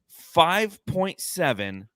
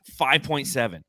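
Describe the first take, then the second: First: Five point seven slowed, each word stressed; slow emphatic. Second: Said in the usual way. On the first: Shown as a demonstration. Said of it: "slow emphatic repeat". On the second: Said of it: "repeated stress".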